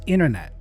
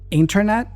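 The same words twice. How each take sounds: First: The T after the N is dropped. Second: The T after the N is pronounced. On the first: "that T tends to go away" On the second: "Internet becomes internet"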